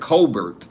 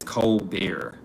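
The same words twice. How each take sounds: First: It rhymes with Talbert, final t pronounced. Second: It is said the French way, final t silent. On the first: "I know somebody named last name Talbert, so I'm saying Colbert" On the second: "she says Colbert. It's French"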